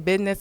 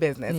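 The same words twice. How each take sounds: First: It is said in a vernacular pronunciation. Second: It is said in a standard pronunciation. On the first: This is how the child says it. "He say business" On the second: This is the expected standard form. "instead of business"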